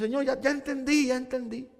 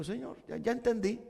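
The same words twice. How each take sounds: First: Higher, quick pleading; pleading to God. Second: Much softer, yielding surrender. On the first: Preacher telling God he has learned, mild pleading. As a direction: beg the Lord to stop, a little childlike. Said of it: "Yo digo". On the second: Preacher surrendering to the Lord, soft and yielding. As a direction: give in, barely above a breath. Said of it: "me rindo y le digo". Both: Retold or imitated.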